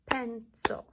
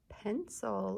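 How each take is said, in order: First: "Pencil" in two separate, firm beats; syllable by syllable. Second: Said in the usual way. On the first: Shown as a demonstration. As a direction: clap out "Pencil" as PEN, CIL. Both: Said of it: "Let's clap out pencil".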